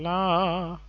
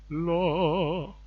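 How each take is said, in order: First: The vowel is a wide open 'ah' sound. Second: The vowel is a rounded 'oh' sound. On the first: The speaker calls it wrong. "Instead of saying la" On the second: The speaker calls it right. "how about saying lo? I think that that's better"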